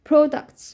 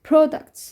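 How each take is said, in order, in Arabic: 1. لهجة بريطانية مع حرف العلة الأول المدوّر 'o'. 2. لهجة بريطانية مع حرف العلة الأول المدوّر 'o'.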